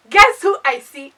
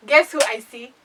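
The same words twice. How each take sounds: First: Louder and slower, drawn out for suspense; loud slow teaser. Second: Said in the usual way. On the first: Retold or imitated. Teasing her viewers before revealing the guy, loud and slow. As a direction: stretch it out to hook the audience.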